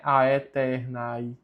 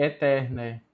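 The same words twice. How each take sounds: First: "aeternae" with both As sounded, "a-e-ter-nai"; wrong ae pronunciation. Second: "aeternae" as "e-tér-né"; both As silent. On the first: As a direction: sound every vowel in "aeternae". ("aeternae" com os As pronunciados, "aetérnai") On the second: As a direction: drop both As in "aeternae", open E at each end. ("aeternae" com os As mudos, "etérné") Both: Shown as a demonstration. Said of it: "temos dois As mudos".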